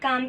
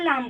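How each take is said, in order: First: The word begins with a k sound. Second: The word begins with an l sound. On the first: The speaker calls it right. "काम की जगह" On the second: The speaker calls it wrong. "लाम बोल देता है"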